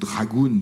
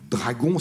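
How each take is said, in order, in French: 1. Le nom se prononce avec des sons anglais. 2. Le nom se prononce avec des sons français. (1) "en anglais ou en américain" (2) "si vous voulez le prononcer à la française"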